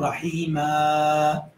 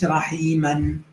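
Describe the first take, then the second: First: The word ends with a long a vowel. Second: The word ends with an n sound. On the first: The speaker calls it right. "Aber wenn du stoppst, dann sagst du Rahima" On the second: The speaker calls it wrong. "Du sagst nicht Rahiman"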